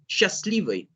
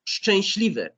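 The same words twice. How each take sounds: First: The word starts with a plain sh. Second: The word starts with a sh-ch cluster. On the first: The speaker calls it wrong. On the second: The speaker calls it right.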